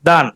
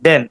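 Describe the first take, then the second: First: The vowel sounds like the 'a' in 'dan'. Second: The vowel sounds like the 'e' in 'den'. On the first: This is a memory aid for the spelling with A. "দান বললে এ, আপনি আর ভুলবেন না" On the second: This is the usual everyday pronunciation. "আমরা উচ্চারণ দুটাই দেন বলি"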